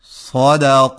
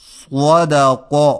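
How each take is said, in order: First: The vowel is unrounded, lips kept flat. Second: The vowel is rounded, with rounded lips. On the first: The speaker calls it right. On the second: The speaker calls it wrong.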